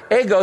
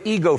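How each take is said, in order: First: "Ego" said EGG-oh, short e; Greek pronunciation of Ego. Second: "ego" said EE-go, long ee; English pronunciation of ego. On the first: Greek word set against English word. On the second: English word derived from the Greek. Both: Shown as a demonstration.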